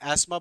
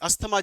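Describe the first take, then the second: First: The 'th' sound in the middle is silent. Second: The 'th' sound in the middle is pronounced. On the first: The speaker calls it right. "वैसे एस्मा बोला जाता है, pronunciation is एस्मा" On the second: The speaker calls it wrong. "अस्थमा जिसे बोलते हैं"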